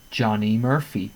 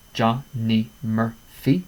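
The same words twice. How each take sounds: First: Said in the usual way. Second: "Johnny Murphy" slowed, each beat separated; "Johnny Murphy" said slowly, four clear beats; slow syllable count. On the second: Shown as a demonstration. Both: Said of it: "four syllables".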